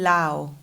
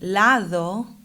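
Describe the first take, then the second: First: The d between the vowels is dropped. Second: The d between the vowels is pronounced. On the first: "he's saying lao" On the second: "instead of saying lado"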